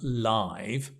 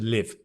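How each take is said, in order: First: It is pronounced like the adjective live. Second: It is pronounced like the verb live. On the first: The speaker calls it wrong. "not live" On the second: The speaker calls it right. "It's the verb, not live, but to live"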